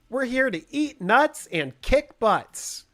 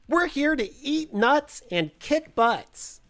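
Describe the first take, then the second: First: The voice is pitched lower, nearer normal speech. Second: The voice is pitched much higher, like a squeak. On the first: "That's that's about as close as I can get" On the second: "it needs to be like up a couple octaves"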